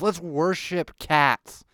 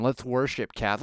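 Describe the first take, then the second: First: "Let's worship cats" slow and mocking, a bit higher; slow, sneering repeat of "Let's worship cats"; slow mocking emphasis. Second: Said in the usual way. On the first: Real, not acted. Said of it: "And let's worship cats".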